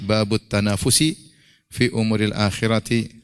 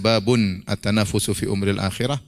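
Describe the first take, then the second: First: The word tanafus ends with an 'i' vowel. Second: The word tanafus ends with a 'u' vowel. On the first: The word 'bab' is joined to the following word in a possessive construction. "dengan mudhaf mudhaf ilaih" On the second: The word 'bab' stands on its own. "bisa dibaca babun at-tanafusu"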